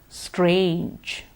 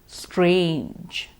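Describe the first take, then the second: The two takes are said the same way.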